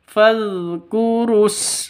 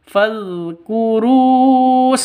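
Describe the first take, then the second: First: The 'ru' vowel is short, going straight on. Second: The 'ru' vowel is drawn out long. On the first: The speaker calls it right. "langsung ke sinnya. Fadhkurus, seperti itu" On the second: The speaker calls it wrong. "salah kalau baca seperti itu"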